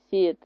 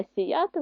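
First: СІяти with the first syllable stressed; SI-ya-ty, weight up front. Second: СіЯти with the middle syllable stressed; si-YA-ty, weight in the middle; stress on second syllable. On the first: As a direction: lean on СІ in сіяти. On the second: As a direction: lean on Я in сіяти. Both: Shown as a demonstration. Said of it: "нам підходить слово сіяти і сіяти".

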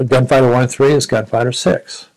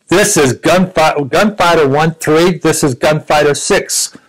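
First: Said in the usual way. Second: Slow radio call. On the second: Retold or imitated. Captain's radio call retold emphatically.

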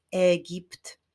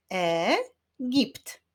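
First: Said in the usual way. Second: "Egipt" split as e, pause, gipt; syllable by syllable. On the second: Shown as a demonstration. Teacher clapping syllables with pupils, "Egipt" said syllable by syllable. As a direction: sound out "Egipt" in two beats. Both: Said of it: "Wyklaszczmy sylaby w tym wyrazie".

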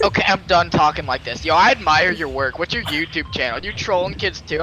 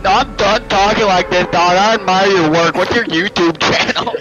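First: Lower, matter-of-fact imitation of the kid; kid dropping the act. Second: Loud, hammed-up imitation of the kid; kid dropping the act. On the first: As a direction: switch to a lower, sincere register, imitated. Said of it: "after that, he's like". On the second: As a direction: imitate the kid, pushed much louder. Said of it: "he was like".

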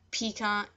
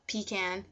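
First: "pecan" said pee-kahn, open ah vowel, no final n; first pronunciation. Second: "pecan" said pee-can, flat a like in can, final n sounded; second pronunciation. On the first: Listing both ways for the accent challenge, "pecan" as pee-kahn. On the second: Giving the other version on camera, "pecan" as pee-can. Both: Shown as a demonstration.

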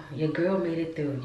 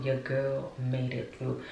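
First: Proud. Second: Quiet, slow repeat; slow and soft. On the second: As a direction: let it sink in softly. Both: Real, not acted.

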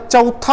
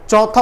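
First: चौथा with a gliding "a-u"; slow चौथा with a diphthong; correct option. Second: चौथा with a single open "o" vowel; no glide in the first vowel of चौथा; mispronounced option. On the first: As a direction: say चौथा as "cha-u-tha", slowly. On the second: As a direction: say चौथा as "chaw-tha". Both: Shown as a demonstration. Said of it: "सही उच्चारण अभी कर लें".

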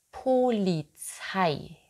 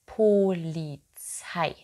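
The two takes are said the same way.

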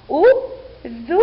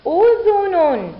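First: Slow syllables with pauses between; teacher's separated sounding-out. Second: أذن joined as one high, loud word; teacher's slow whole-word model; blended word reading. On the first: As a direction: break أذن into u - dhu - nun. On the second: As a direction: read udhunun unbroken, drawn out. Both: Shown as a demonstration. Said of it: "لنقرأ".

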